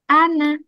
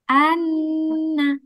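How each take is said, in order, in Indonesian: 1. Bunyi n di tengah dibaca pendek. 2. Bunyi n di tengah ditahan panjang. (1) "Cara bacanya ana" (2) "kalau ada tasdid berarti harus lama"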